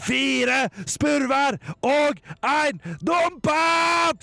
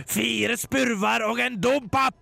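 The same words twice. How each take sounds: First: Very high, slow drawn-out scream; shrieking. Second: Shouting Stian. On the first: Stian screams at the figure, high and slow. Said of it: "skreik han så høyt han makta". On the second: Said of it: "ropte Stian så høyt han kunne". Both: Acted.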